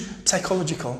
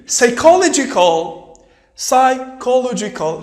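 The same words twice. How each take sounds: First: Psychological with the p sounded, psaikolodjical; the wrong way, with a p. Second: Psychological said with a silent p, slow. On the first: Teacher shows pupils the wrong way. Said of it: "ما نقولوش". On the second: Teacher shows pupils the p is silent. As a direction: say it saikolodjical, no p sound. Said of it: "ما نقولوش psychological". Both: Shown as a demonstration.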